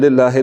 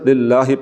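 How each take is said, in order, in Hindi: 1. शब्द 'ay' जैसे स्वर पर खत्म होता है। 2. शब्द एक साफ 'ee' स्वर पर खत्म होता है। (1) "लिल्लाहे नहीं पढ़ना" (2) "लिल्लाहि पढ़ना है"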